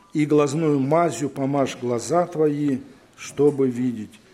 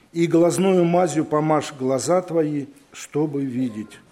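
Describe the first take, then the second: No difference in how they are said.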